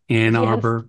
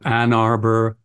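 First: The vowel in 'Ann' is raised, sounding close to 'ee'. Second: The vowel in 'Ann' is low, like the vowel in 'cat'.

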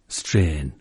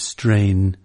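First: It is said in Elizabethan original pronunciation. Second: It is said in modern English pronunciation.

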